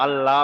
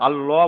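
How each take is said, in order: First: আল্লাহ with a thin, open "lla"; thin light L. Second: আল্লাহ with a heavy, rounded "llo"; full heavy L. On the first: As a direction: say আল্লাহ as "Alla", L kept light. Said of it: "তখন আল্লাহ বলতে হবে". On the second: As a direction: say আল্লাহ as "Allo", dark and full. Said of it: "বলা যাবে না". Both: Shown as a demonstration.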